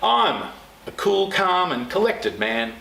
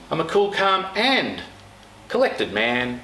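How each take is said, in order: First: The word I'm carries the strongest stress. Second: The word calm carries the strongest stress.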